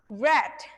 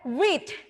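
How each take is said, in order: First: It has the vowel of the past-tense form. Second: It has the vowel of the present-tense form. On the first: The action happened in the past. "For verb two and also verb three, you have to pronounce read" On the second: The action happens in the present. "Untuk yang verb satu, kalian baca read"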